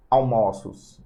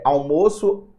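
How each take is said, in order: First: "almoços" with an open stressed o. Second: "almoço" with a closed stressed o, slowly. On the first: Teacher showing metaphonic plural, open vowel in "almoços". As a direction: say "almoços" as al-MÓ-ços, vowel opened. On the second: Teacher contrasting singular with plural, closed vowel in "almoço". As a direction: say "almoço" with a tight "ô", as al-MÔ-ço. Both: Shown as a demonstration. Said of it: "Plural metafônico é quando você fala".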